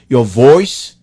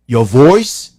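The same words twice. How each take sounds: The two takes are said the same way.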